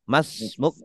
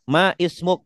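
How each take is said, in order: First: The 'i' is dropped and the words merge. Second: The 'i' of 'ismuk' is pronounced separately. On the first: This is how it is actually read. "Karena hamzahnya wasol jadi langsung masmuk begitu" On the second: This is the underlying full form. "Asalnya ma ismuk hamzah wasol"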